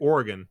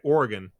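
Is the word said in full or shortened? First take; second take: shortened; shortened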